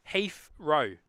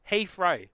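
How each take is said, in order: First: "Heathrow" said slowly in two parts, Heaf, row; broken into syllables. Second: Said in the usual way. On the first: Shown as a demonstration. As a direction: split "Heathrow" after an f sound: Heaf... row. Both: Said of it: "Pronounce Heath-, Heathrow".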